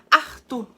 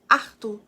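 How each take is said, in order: First: It is said in a Northeastern Brazilian accent. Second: The same.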